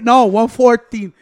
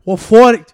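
First: Said in the usual way. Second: Mock Australian accent. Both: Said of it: "That motherfucker's accent".

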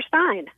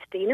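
First: "Stein" with a long i vowel; "Stein" as in sign; pronounced STINE. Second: "Steen" with a long ee vowel; "Steen" as in seen; pronounced STEEN. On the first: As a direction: say "Stein", rhyming with mine. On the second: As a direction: say "Steen", rhyming with green. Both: Shown as a demonstration. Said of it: "is it Steen or Stein".

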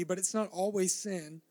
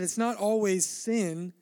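First: Said in the usual way. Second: Not drawn out slowly and leaned on; slow, stressed not. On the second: Shown as a demonstration. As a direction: lean on not in it's not always sin. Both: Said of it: "like I said".

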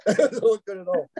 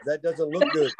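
First: Laughing. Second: Said in the usual way. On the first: Real, not acted. Repeats punchline, breaks into laughter.

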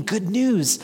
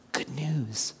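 First: Said in the usual way. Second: Good news said very soft and gentle; hushed good news. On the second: Shown as a demonstration. Preacher comforting mourners in the pews, hushed and tender. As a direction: breathe the good news softly to them. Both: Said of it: "Do you hear that?".

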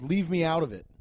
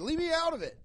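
First: Said in the usual way. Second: Much higher, squeaky imitation of the guy; high mock heckler. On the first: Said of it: "He yelled". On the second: The heckler quoted, high squeaky imitation. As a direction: squeak it like a flustered audience member. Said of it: "He said".

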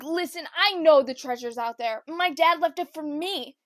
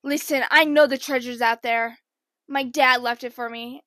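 First: Mocking copy. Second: John B line. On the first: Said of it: "I'm like". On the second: Retold or imitated. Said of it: "John B would be like".

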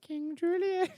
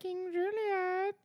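First: High cartoon lemur voice; King Julien. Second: Very high, slow lemur king; King Julien. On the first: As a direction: announce yourself like a lemur king. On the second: Pretend. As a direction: stretch it out like a cartoon lemur. Cartoon lemur voice.

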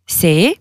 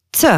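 First: Said in the usual way. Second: T said as "tseu", the sound of Albanian C; T as a hissed "tsuh"; Albanian letter sound. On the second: Shown as a demonstration. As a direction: make T a "ts" plus short eu. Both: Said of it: "ça se prononce comme".

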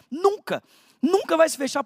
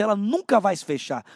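First: "Nunca" hit higher and sharper, "Nunca vai se fechar" pushed up; emphatic never. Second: Said in the usual way. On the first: Acted. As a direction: hammer the word "Nunca" home. Preacher repeats for emphasis. (ênfase em "Nunca", mais aguda e forte)

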